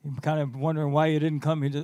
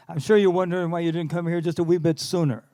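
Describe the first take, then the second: First: Said in the usual way. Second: A light Irish lilt on the manager's words; slightly higher Irish brogue, lifting on "sure"; Irish accent. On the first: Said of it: "to, uh, Irish accent". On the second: Retold or imitated. Irish manager reassuring the young singer, in a light Irish accent. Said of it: "Irish accent".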